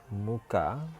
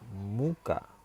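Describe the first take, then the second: First: The stress is on the first syllable. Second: The same.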